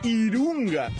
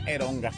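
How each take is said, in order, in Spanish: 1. Las vocales son i y luego u. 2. Las vocales son e y luego o. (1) "si lo quieres pronunciar bien, sería Irunga" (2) "si le quieres meter españolito así normal, sería Eronga"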